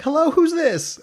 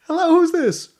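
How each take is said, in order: First: Much higher, louder radio host greeting; bright mock DJ pickup, much higher. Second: Much higher, louder radio host greeting; mock DJ pickup, much higher and louder. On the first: Imitating the radio DJ answering. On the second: Replaying the radio DJ answer. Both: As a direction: put on the perky on-air answer.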